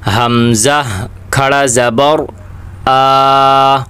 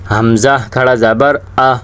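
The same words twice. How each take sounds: First: The final vowel is drawn out long. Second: The final vowel is cut short. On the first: The speaker calls it right. "एक अलीफ की मिकदार इसे खींच कर पढ़ेंगे" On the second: The speaker calls it wrong. "वो ये आह कर लेते हैं, हरकत बना लेते हैं"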